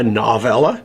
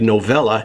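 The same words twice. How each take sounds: First: The first syllable sounds like 'nov' in novel. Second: The first syllable does not sound like 'novel'. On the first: "If a novella is a short novel, shouldn't it be a novella?" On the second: "I've heard other YouTubers say novella"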